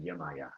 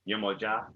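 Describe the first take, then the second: First: The middle consonant is a Y sound. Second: The middle consonant is a J sound. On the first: This form came from Spanish influence. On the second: This is the original form of the name.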